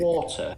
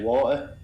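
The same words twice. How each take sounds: First: The T sound in the middle is clearly pronounced. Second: The T sound in the middle is dropped. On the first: "If it's a Queen's English" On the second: "we don't pronounce our T's in Manchester"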